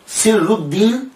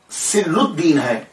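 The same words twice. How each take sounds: First: سر الدین said slowly with a rising tune, every sound drawn out; careful pronunciation. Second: سر الدین said slowly, falling at the end; measured pronunciation. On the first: Teacher showing students the correct way to say the name, slowly. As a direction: spell out سر الدین slowly and clearly. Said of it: "تلفظ جو ہے وہ ان کے نام کا سری ہے". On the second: Teacher naming the saint, slowly and deliberately. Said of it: "اگر ان کا نام". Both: Shown as a demonstration.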